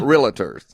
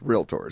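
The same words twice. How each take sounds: First: The word is said with three syllables. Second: The word is said with two syllables. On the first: The speaker calls it wrong. "we are not realtors" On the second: The speaker calls it right. "Just two syllables"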